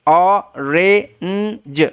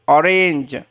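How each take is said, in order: First: "অরেঞ্জ" very slowly in parts: o, re, nnn, j; sounding out. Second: Said in the usual way. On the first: Shown as a demonstration. Teacher modelling orange for learners, sounded out slowly. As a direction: stretch and separate every sound of "অরেঞ্জ".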